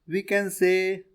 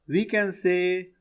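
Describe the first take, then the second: The two takes are said the same way.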